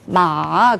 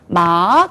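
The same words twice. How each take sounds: First: It is said in the third tone. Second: It is said in the second tone. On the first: It means horse. "삼성이 되거든요" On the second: It means hemp. "일성과 이성에 따라서 뜻이 완전히 바뀌어요"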